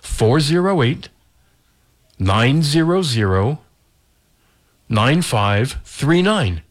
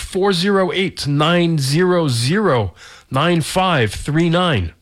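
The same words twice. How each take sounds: First: The number is said slowly. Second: The number is said at normal speed.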